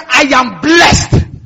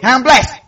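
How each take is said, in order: First: It is said earnestly, with conviction. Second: It is said casually, without weight. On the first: The speaker says it grasping its meaning. The speaker calls it right. "there's a way you can say, I am blessed with understanding, and the effect is different" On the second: The speaker says it without grasping its meaning. The speaker calls it wrong. "You can just say casually"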